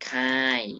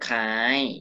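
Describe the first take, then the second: First: The syllable has a falling tone. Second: The syllable has a high tone. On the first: "ไม่เอก" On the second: "ไม่โท"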